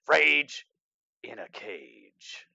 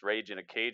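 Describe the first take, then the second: First: It is said loudly with dramatic announcer energy. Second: It is said casually, at normal energy. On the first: The speaker calls it right. "I gotta say it like Rage in a Cage" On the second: The speaker calls it wrong. "can't say it like that"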